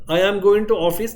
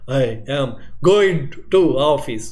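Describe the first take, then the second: First: Said in the usual way. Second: Very slow, word by word, with uneven bursts of volume; staccato speech. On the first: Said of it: "this is normal". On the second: Shown as a demonstration. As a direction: break every word apart as in abnormal, jerky speech. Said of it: "So this is now something abnormal".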